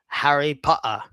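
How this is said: It is said in a strong English accent. "a strong English guy will say"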